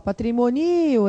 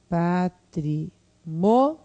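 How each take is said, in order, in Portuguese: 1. A sílaba tônica é 'ni'. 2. A sílaba tônica é 'mo'. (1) "Patrimonio é assim. Só que não é assim que se pronuncia essa palavra" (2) "como é que é? Patrimônio"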